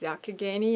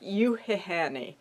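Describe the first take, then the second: First: The name starts with 'ya', like Yakagani. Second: The name starts with 'yu', like Yuhihani. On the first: The speaker calls it right. "I had to ask Carrie how to pronounce it" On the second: The speaker calls it wrong. "by looking at it, it looked like Yuhihani"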